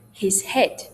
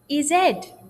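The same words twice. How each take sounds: First: The h sounds are pronounced. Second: The h sounds are dropped.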